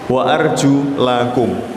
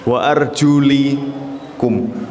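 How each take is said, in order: First: The vowel before the final 'kum' is a. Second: The vowel before the final 'kum' is i. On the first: The feet must be fully washed. "Bagi yang membacanya wa arjulakum ... kaki itu itu harus dibasuh" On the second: The feet only need to be wiped with water. "yang berpendapat wa arjulikum itu hanya disapu saja airnya"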